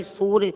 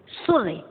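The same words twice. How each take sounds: First: "सूर्य" with a long ū; lengthened first vowel in "सूर्य". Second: "सूर्य" with a short u; short u in "सूर्य", as a misspelling; wrong short vowel. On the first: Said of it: "सा में बड़े ऊ की मात्रा लगी". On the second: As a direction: say "सूर्य" as surya, cutting the first vowel short. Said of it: "सूर्य बोलेंगे तो अशुद्ध है". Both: Shown as a demonstration.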